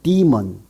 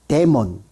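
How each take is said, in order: First: It starts with a long 'dee' sound. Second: It starts with a short 'deh' sound.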